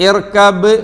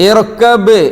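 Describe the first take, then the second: Both takes have the same delivery.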